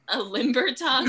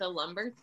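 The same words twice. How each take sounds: First: A limber tongue, said with the vowel of "limb"; a limber tongue, fixing the slip, louder; corrected word. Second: A lumber, said with the vowel of "lumber" instead of limber; a lumber, the u sound in place of the i; slip of the tongue. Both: Real, not acted. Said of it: "Lumber tongue".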